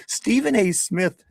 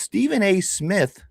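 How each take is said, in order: First: High put-on English accent, breaking into laughter; laughing mock English accent. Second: Mock English accent. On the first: Host cracking up while mimicking a British listener in an English accent. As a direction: try the English accent again through a laugh. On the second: Host mimicking a British listener in an English accent. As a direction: pitch it up into a put-on English accent. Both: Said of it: "this is how he sounds in my head. He's English".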